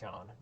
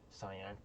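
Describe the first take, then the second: First: The name sounds like one syllable, shan. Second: The name sounds like two syllables, sigh-an. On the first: The speaker calls it right. "It's pronounced Shan" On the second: The speaker calls it wrong. "not Cyan"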